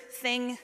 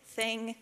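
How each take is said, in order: Both takes have the same delivery.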